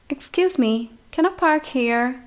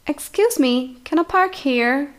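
No difference in how they are said.

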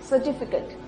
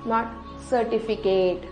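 First: The last syllable sounds like cut. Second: The last syllable sounds like kate. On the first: The speaker calls it right. "it's cut" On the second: The speaker calls it wrong. "not kate"

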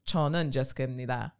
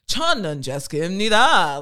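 First: It is said on one flat note. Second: It is said with pitch moving up and down.

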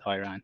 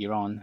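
First: Iran is pronounced the anglicized way. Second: Iran is pronounced the native way. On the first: The speaker calls it wrong. "not Iran" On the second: The speaker calls it right. "The correct name is actually Iran"

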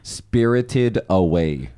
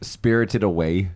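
First: It is said slowly. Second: It is said at normal speed.

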